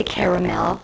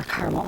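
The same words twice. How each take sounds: First: Caramel said as KARE-uh-mel, three syllables. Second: Caramel said as KAR-mel, two syllables, middle vowel dropped. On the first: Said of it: "do you say caramel or caramel". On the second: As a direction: say caramel the Michigan way, KAR-mul. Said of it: "I say caramel". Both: Shown as a demonstration.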